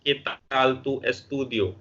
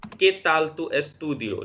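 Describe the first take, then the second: First: ¿Qué tal tu estudio? drawn out slowly; teacher models asking about studies; slow model sentence. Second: ¿Qué tal tu estudio? repeated slowly; teacher rereads the Spanish sentence. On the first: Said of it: "जैसे कह सकते हैं". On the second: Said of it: "लिखा है यहाँ पे". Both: Shown as a demonstration.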